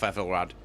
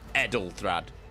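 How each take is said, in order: First: The name sounds like Ethelred. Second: The name sounds like Edelthrad. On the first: The speaker calls it wrong. "I'm saying it wrong" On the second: The speaker calls it right. "it's Edelthrad"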